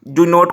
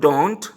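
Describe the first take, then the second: First: It is said as two full separate words. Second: It is said as one short contracted word. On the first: "Do not को don't" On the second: "Do not को don't"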